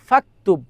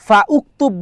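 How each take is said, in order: First: The u vowel is dropped, joining fa to ktub. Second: The initial u vowel is pronounced separately. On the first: The speaker calls it right. "ফা এসে সরাসরি কাফকে ধরতেছে" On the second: The speaker calls it wrong. "ফা উক্তুব বলি কখনো না"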